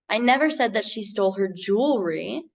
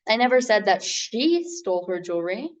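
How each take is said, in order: First: The word "jewelry" carries the stress. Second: The word "she" carries the stress. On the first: "put the emphasis on that last word in the sentence" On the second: Someone else was the thief. "meaning that someone else was the thief"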